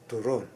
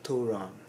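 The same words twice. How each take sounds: First: The stress is on the second syllable. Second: The stress is on the first syllable. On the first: The speaker calls it right. "second syllable" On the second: The speaker calls it wrong. "It's not turon"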